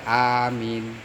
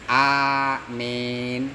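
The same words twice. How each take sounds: First: The first vowel a is kept short. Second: The vowel is tilted toward an e sound. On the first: "koser yaitu pendek" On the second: "dibaca miring mimnya"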